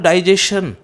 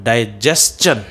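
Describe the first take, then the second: First: The ending sounds like shun. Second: The ending sounds like chun. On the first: The speaker calls it wrong. "Not डाइजेशन" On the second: The speaker calls it right. "The correct pronunciation of this word is ... डाइजेस्चन"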